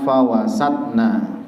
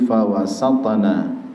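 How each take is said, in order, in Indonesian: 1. Konsonan sebelum na berhenti datar, tanpa pantulan. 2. Konsonan sebelum na ada pantulan kecil. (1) "jangan dibaca" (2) "ada pantulan kecil"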